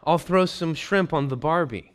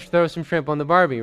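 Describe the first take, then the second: First: Mock Aussie invite. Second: Louder, half-laughing Aussie catchphrase, tossed off as a joke; hammed-up Aussie barbecue line, lightly voiced; mock Australian accent, loud and jokey. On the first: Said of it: "you read it and it says". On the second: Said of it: "so he wouldn't have said".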